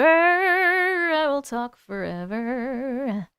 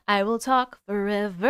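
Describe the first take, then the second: First: Drawn out slowly. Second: Said in the usual way. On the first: Shown as a demonstration. Promising the chat to talk forever, drawn out slowly. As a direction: stretch every word out very slowly.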